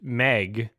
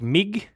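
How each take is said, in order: First: The vowel is an open 'eh' sound. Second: The vowel is a closer 'ih' sound. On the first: "the word Meg" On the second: "he pronounces the word Meg like Mig"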